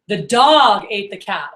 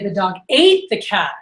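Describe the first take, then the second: First: The word dog carries the emphasis. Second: The word ate carries the emphasis. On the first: It was the dog, not something else. "Oh, it was the dog, not something else, right?" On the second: It ate the cat rather than killing or ruining it. "oh, he ate it, not, I don't know, killed it or ruined it"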